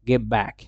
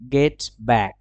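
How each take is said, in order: First: The first word ends in a b sound. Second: The first word ends in a t sound.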